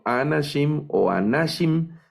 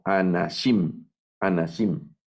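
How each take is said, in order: First: Anashim stressed too early, on A- then on -NA-; wrong stress. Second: Anashim with the stress on final -SHIM; stress on the last syllable. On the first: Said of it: "No leo anashim o anashim". (anashim mal acentuado, en la primera o segunda sílaba) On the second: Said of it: "Hacia el final va el acento". (anashim acentuado al final) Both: Shown as a demonstration.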